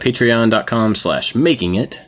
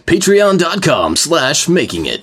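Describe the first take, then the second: First: It is said in his ordinary speaking voice. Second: It is said in his voiceover announcer voice.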